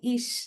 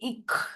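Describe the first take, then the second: First: The word ends in a soft ch sound. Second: The word ends in a hard k sound. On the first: This is the standard pronunciation. "they'll not say ish" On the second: This is the Bavarian dialect pronunciation. "they'll say ik"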